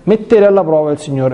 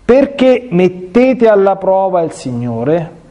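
First: Said in the usual way. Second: Slow stern rebuke, "mettete alla prova" drawn out; Moses, slowly and sternly, questioning the grumbling people; Moses rebuking, slow. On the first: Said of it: "repeats the phrase to explain it". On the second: Acted. Priest reading Moses' rebuke to the people, slow and stern. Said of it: "Mosè disse loro".

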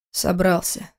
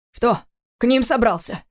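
First: Frowning. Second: Lifted, challenging question; defiant challenge. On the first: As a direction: answer with a frown, giving little. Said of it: "нахмурившись". (хмуро, сдержанно) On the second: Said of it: "с вызовом спросил отец". (с вызовом) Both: A narrator's reading.

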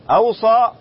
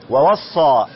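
First: أوصى as aw-saa, opening on hamza with a single s; hamza form. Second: ووصى as wa-was-saa with a doubled s; doubled form. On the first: Sheikh explaining the verb made transitive, hamza form. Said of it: "متعد بالهمزة". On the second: Sheikh showing the other reading, doubled form. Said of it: "بالتشديد". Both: Shown as a demonstration.

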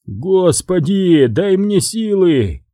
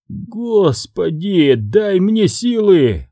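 First: Exasperated plea. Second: Slow, high, drawn-out plea to heaven; exasperated plea. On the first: Boss repeating his despairing plea, slow and high. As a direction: plead once more for patience. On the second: Boss despairing over his henchman, slow high exasperated plea. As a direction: beg God for patience. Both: Acted.

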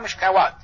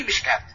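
First: مشكوات said as mishkawat, with a full w sound as spelled; wrong spelling pronunciation. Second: مشكات said as mishkat, with no w sound; correct pronunciation. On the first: Teacher showing students the mistaken reading, مشكوات with the w. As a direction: read مشكوات letter by letter, voicing the waw. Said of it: "على حسب حرفه قال مشكوات". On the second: Teacher giving the correct reading, مشكات without the w. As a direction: say مشكات with a long a and no waw. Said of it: "وهي مشكات". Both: Shown as a demonstration.

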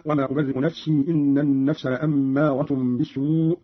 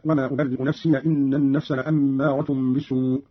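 First: Said in the usual way. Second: "نفسي" ending in short -ya; open final ya. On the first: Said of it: "قرأ قالون بفتح الياء". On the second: Shown as a demonstration. Teacher showing Qalun's reading, "نفسي" said nafsiya. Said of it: "بفتح الياء هكذا".

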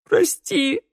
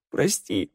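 First: A much higher wailing cry of sorrow; the plea bursts into a wail; acted wail, far higher; wailing sob. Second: Acted sob, held in; sobbing. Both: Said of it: "рыдал Раду".

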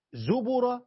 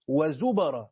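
First: زبر said very slowly as "zubura"; damma on the ب. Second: وزبر said very slowly as "wa-zubara"; fatha on the ب. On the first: Teacher names both readings, slow damma on the ب in زبر. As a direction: slowly sound زبر with u after the ب. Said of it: "بضم الباء". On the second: Teacher names both readings, slow fatha on the ب in وزبر. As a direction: slowly sound وزبر with a after the ب. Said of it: "بفتح الباء". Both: Shown as a demonstration.

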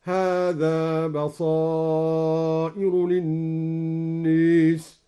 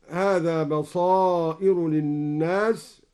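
First: Very slow chanted tartil with للناس leaning to e, linnes; recited with imala. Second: Said in the usual way. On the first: Shown as a demonstration. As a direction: intone slowly, tilting الناس toward e. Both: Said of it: "أمال الناس".

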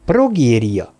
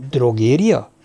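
First: Progéria said with a clear p, firmly correcting; Progéria, stressing the p; correcting the word. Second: Drogéria, said with a d, as a puzzled question; mistaking it for drogéria; drogéria asked with a d; misheard word. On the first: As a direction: set him straight: Progéria with p. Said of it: "javította ki a doktornő". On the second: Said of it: "kérdezte a hadnagy". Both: Acted.

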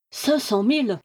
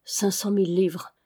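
First: Repeated in amazed wonder, voice lifted; astonished. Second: Hushed, solemn repetition of cinq cent mille livres; reverent. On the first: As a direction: gasp the sum, stunned. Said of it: "répétèrent-ils, ébahis". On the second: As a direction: murmur the sum with awe. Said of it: "répétés avec componction". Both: A narrator's reading.

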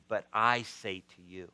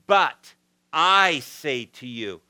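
First: Said in the usual way. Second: "But I say to you" slow and louder, with the stress on "I"; emphatic, slow. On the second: Retold or imitated. Jesus's words to the crowd, declared with slow emphasis. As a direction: lean on "I" and draw out "But I say to you". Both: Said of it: "he would state things emphatically".

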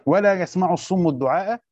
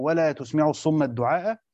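First: "يسمع" said yasma'u with a ya sound at the start; reading with ya. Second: "تسمع" said tusmi'u with a ta sound and u; reading with ta. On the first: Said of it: "محتملة كده ومحتملة كده". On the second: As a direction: start "تسمع" with t. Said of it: "أو". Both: Shown as a demonstration.

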